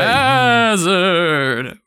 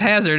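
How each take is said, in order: First: The word is said in a spooky, scary voice. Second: The word is said in a plain, ordinary voice.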